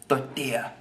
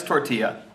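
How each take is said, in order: First: Lightly mock Spanish-accented word; put-on Spanish accent. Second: Said in the usual way. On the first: Shown as a demonstration. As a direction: give it a touch of Spanish accent. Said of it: "say it in an accent". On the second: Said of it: "Again, say it in an accent".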